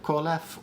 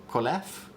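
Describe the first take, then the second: First: Kolef with the first syllable stressed. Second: Kolef with the last syllable stressed, rising; stress on second syllable. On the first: Host exaggerating the difference, Kolef stressed on first syllable. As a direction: lean on the KO of Kolef. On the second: Host exaggerating the difference, Kolef stressed on second syllable. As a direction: lean on the LEF of Kolef. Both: Shown as a demonstration. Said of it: "emphasize the difference so you can hear it".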